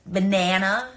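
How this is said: It is said with an American accent. "as you guys say it"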